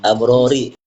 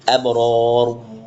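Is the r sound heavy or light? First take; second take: light; heavy. First: The r is light, followed by a vowel. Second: The r is heavy, with no final vowel. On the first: The reader continues without stopping. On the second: The reader stops on this word.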